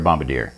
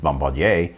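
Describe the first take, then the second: First: The word is said with an English pronunciation. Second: The word is said with a French pronunciation. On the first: It names a crew member who drops bombs. "when you're dropping ordnance on somebody's head, then you're a bombardier" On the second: It is the original form, used pompously for the surname. "original uh, French uh, phrase is bombardier"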